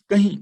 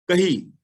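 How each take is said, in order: First: ਕਹੀਂ said firmly with a nasal final ee; correct nasal kahin. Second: ਕਹੀ with a clean oral ee, no nasal; wrong plain kahi. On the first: Teacher giving the class the right reading of ਕਹੀਂ, nasal ee. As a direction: end ਕਹੀਂ on a nasal ee, not a clean ee. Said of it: "ਇਹਨੂੰ ਪੜ੍ਹਨਾ ਹੈ ਕਹੀਂ". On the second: Teacher showing the class the wrong reading, ਕਹੀ without nasal. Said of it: "ਜੇ ਪੜਾਂਗੇ ਨਾ ਕਹੀ". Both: Shown as a demonstration.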